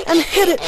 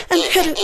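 The two takes are said the same way.

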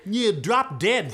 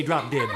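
First: Slow, punched insolence; rude retort. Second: Said in the usual way. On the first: Acted. Cursed sister refusing the dwarf, slow rude retort. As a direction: draw out each word rudely.

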